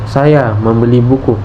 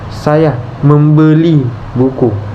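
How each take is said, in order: First: The word saya is stressed. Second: The word membeli is stressed. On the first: The buyer is me, not someone else. "Tekanan pada "saya"" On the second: I really bought it rather than stole it. "Tekanan pada kata "membeli""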